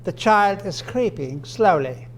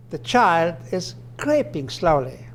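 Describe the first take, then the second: First: Creeping and SLOWLY each given their own stress; slow example, SLOWLY not tucked under creeping; separate stress on SLOWLY. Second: Slow example with the weight on CREEPING; stress on CREEPING. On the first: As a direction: let "slowly" stand on its own after "creeping". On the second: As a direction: punch "creeping", let "slowly" fall away. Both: Shown as a demonstration. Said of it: "The intonation here makes a difference".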